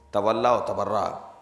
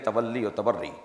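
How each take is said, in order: First: Both key words end in an 'a' vowel. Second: Both key words end in an 'ee' vowel. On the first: The speaker calls it wrong. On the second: The speaker calls it right.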